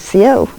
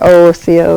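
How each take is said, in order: First: The word is said without a leading vowel. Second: The word is said with a leading vowel. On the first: This is how native speakers say it. The speaker calls it right. "We say co" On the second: Native speakers do not say it this way. The speaker calls it wrong. "we don't say oh co"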